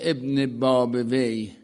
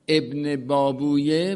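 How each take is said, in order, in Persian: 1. اسم به 'babawayh' ختم میشه. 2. اسم به 'babuyeh' ختم میشه. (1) "ابن بابویه می شده ابن باب وی" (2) "ابن بابویه می شده ابن باب وی"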